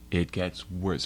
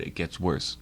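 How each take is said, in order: First: "It gets worse" slowed, each word weighted; emphatic repeat. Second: Said in the usual way. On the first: Real, not acted.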